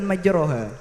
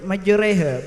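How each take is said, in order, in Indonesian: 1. Vokal setelah r adalah o penuh. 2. Vokal setelah r condong ke e. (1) "bukan majroha" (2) "Jadi bacanya itu maj majreha"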